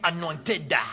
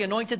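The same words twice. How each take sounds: First: The word is said in an exaggerated preacher style. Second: The word is said in a plain, ordinary way. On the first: It mimics television preachers who treat it as mystical. The speaker calls it wrong. "They also say it differently. they say anointed" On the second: This is the speaker's own everyday meaning. The speaker calls it right. "I say anointed"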